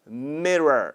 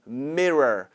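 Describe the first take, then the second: The two takes are said the same way.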